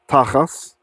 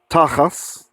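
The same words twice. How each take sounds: First: The word ends with an S sound. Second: The same.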